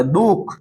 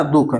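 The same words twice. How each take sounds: First: दुख stressed, its उ drawn out like ऊ; lengthened vowel. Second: Said in the usual way. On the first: Shown as a demonstration. Teacher demonstrating stress to students, long उ in दुख. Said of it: "दीर्घ उ की तरह पढ़ा". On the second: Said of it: "ये ह्रस्व उ है".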